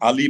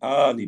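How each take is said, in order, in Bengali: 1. প্রথম স্বরধ্বনিটি ছোট রাখা হয়। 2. প্রথম স্বরধ্বনিটি টেনে লম্বা করে বলা হয়। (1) "আলি বললে এই জিনিসটা ঠিক হচ্ছে না।" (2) "এক আলিফ টান আছে। এটা একটু ওইভাবে করে বলতে হবে।"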